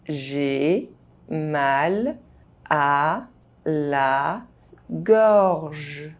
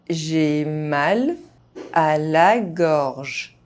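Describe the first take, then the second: First: The phrase is spoken very slowly. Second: The phrase is spoken at normal speed. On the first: Each syllable can be heard clearly. "very slowly" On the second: This is the pace learners should use. "at a normal pace"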